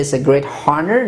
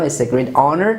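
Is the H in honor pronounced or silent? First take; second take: pronounced; silent. First: Honor starts with an audible H sound. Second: Honor starts with a vowel, no H sound. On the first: The speaker calls it wrong. "some people say" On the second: The speaker calls it right.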